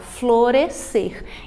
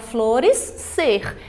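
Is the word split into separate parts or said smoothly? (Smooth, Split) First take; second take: Smooth; Split. First: It is said smoothly with one merged consonant. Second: It is split into two parts with both consonants. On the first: The speaker calls it right. "eu falo florescer" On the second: The speaker calls it wrong. "Eu não falo a palavra flores, ser"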